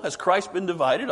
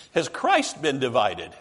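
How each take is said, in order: First: Has Christ been divided asked with a rising tune on Christ; rhetorical question. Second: Slow, weighty reading of Has Christ been divided, falling at the end; quoted question. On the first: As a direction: toss it out as an obvious rhetorical question. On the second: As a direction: read Paul's question slowly, landing on Christ. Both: Shown as a demonstration. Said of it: "but it's rhetorical".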